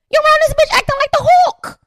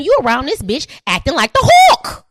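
First: Louder, higher repeat. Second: Said in the usual way. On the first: Shown as a demonstration. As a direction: push it way up the second time. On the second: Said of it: "repeated louder".

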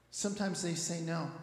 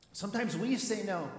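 First: Said in the usual way. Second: "we" lifted in pitch against the rest; stress on WE. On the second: Real, not acted. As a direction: lean on "we" to turn it round. Turns they into we.

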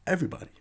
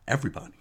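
First: "Everybody" repeated much higher for emphasis; emphatic repeat. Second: Said in the usual way. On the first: Shown as a demonstration. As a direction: hammer home "Everybody" up high.

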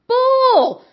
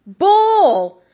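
First: Much higher, building on the first cry; louder scornful outburst. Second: A sharp, higher cry of disbelief; scornful outburst. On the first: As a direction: push it even higher in disgust. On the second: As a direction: spit it out in contempt. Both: Real, not acted.

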